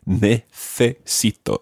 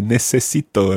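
First: The middle consonant is a th sound. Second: The middle consonant is an s sound. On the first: "But in Spain" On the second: "if you're in Latin America, ... you can just say necesito and they're all s sounds"

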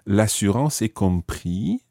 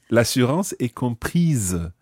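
First: The last word ends without an S sound. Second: The last word ends with an audible S sound. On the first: The speaker calls it wrong. "we don't say l'assurance est compris" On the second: The speaker calls it right. "that makes you sound the S"

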